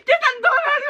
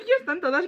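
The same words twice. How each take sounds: First: High excited shout. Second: Laughing through the words. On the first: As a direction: cry it out in joy. Excited the album is out. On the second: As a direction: say it again while laughing. Repeat with laughter. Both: Real, not acted.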